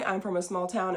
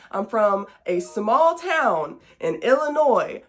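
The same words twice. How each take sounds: First: Said in the usual way. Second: SMALL TOWN and Illinois stretched slow and loud; emphatic clarification. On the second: Real, not acted. Host heading off a mix-up with Nashville, Tennessee, slow and emphatic. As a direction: spell it out slowly, punching "small town" and "Illinois". Repeats it to head off confusion.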